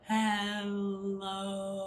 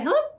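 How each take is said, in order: First: It is said very slowly. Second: It is said very fast.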